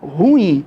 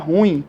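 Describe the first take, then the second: First: The word is split into two separate syllables. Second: The word is squeezed into a single syllable. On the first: The speaker calls it right. "Você deve pronunciar ruim. É uma palavra dissílaba" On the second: The speaker calls it wrong. "não deve pronunciar ruim. Isso é erro"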